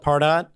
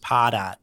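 First: The name is said plainly, just as spelled. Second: The name is said with a Northeastern American accent. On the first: "it's the easiest way to pronounce it when you read it" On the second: "one person from the Northeast who says Pardot"

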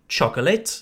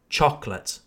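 First: The word is said with three syllables. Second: The word is said with two syllables. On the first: The speaker calls it wrong. "If you say chocolate, it's clear you're French" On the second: The speaker calls it right. "We don't pronounce the second O, just chocolate"

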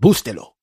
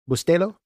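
First: The stress is not on the middle syllable. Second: The stress is on the middle syllable. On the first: The speaker calls it wrong. "a lot of times I've said" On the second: The speaker calls it right. "Is the accent on the E"

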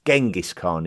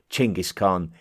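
First: The name is said the common Western way. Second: The name is said closer to the local way. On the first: The speaker calls it wrong. "more commonly pronounced Genghis Khan in the Western world" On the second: The speaker calls it right. "a closer approximation to the correct local pronunciation"

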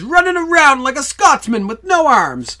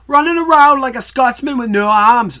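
First: It is said in his usual accent. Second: It is said in a Yorkshire accent.

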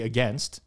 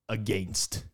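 First: It is said with an American pronunciation. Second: It is said with a Canadian pronunciation. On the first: "I now always say against, because I've been coached to say it that way" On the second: "that's how Canadians say it"

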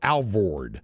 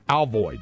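First: The second syllable has an R sound, 'vord'. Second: The second syllable has no R, 'void'.

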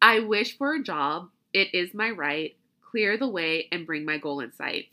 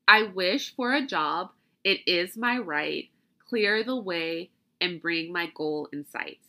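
First: It is said at a normal speed. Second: It is said slowly.

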